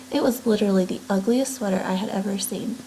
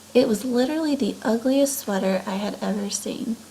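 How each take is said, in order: Both takes have the same delivery.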